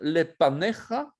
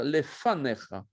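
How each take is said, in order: First: The inner consonant is a p sound. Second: The inner consonant is an f sound. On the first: The speaker calls it wrong. "On ne va pas dire" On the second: The speaker calls it right. "on va dire"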